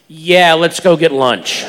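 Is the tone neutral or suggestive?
suggestive. It is said in a knowing, suggestive tone.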